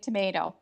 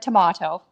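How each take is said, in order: First: It is said with a Canadian pronunciation. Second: It is said with an English pronunciation. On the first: This is how it is said in Canada. "for me in Canada, I think I say tomato" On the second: This is how it is said in England. "when I was in England visiting relatives, it was more of a tomato"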